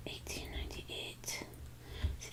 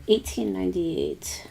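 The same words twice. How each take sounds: First: Soft breathy whisper of the date; murmured under the breath while writing. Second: Said in the usual way. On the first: Real, not acted. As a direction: whisper it to yourself. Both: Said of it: "Why am I whispering?".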